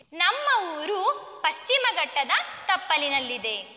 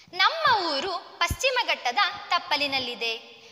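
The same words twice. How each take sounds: Both takes have the same delivery.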